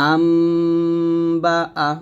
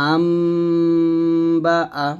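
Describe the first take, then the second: The two takes are said the same way.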